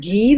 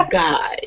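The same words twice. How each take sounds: First: Guy said the French way, like "ghee". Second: Guy said the English way, rhyming with "eye"; plain English Guy, long i. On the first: Mother asking if Guy is the French name, Guy said like "ghee". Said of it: "the French pronunciation?". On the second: Daughter correcting mother, Guy said as English "guy". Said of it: "She goes, "No, Guy". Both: Shown as a demonstration.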